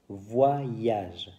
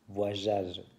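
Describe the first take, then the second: First: The middle 'y' glide is clearly pronounced. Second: The middle 'y' glide is missing or weak. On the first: The speaker calls it right. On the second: The speaker calls it wrong. "Beaucoup de mes élèves disent voyage"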